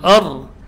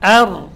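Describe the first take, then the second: First: The opening vowel sounds heavy and thick. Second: The opening vowel sounds light and thin. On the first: The speaker calls it wrong. "Tidak boleh dibaca tebal, bukan ar" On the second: The speaker calls it right. "tapi ar, ya, tipis"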